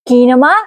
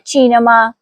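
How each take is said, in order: First: The word begins with a k sound. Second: The word begins with a ch sound. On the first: The speaker calls it wrong. "कीनमा नहीं कहेंगे" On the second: The speaker calls it right. "इसलिए चे है, काफ नहीं, इसलिए हम कहेंगे चीनमा"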